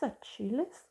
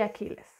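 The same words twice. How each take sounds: First: The name is pronounced in an English style. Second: The name is pronounced in a Spanish style. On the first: This is the guessed original pronunciation. "I suppose it's Achilles? I'm not sure" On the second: This is how it is said locally. "But here we say Achilles"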